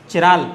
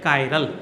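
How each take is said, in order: First: The word begins with a 'chi' sound. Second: The word begins with a 'kai' sound. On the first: The speaker calls it wrong. "बहुत से इसको चिराल भी बोलते हैं" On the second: The speaker calls it right. "सही word उच्चारण जो है इसका वो है कायरल"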